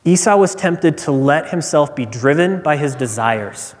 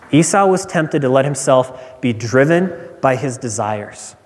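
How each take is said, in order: Both takes have the same delivery.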